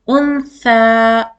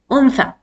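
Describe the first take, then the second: First: The final vowel is drawn out long. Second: The final vowel is kept short. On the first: The speaker calls it wrong. "You will not prolong your uh, sound" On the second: The speaker calls it right. "Only one count here"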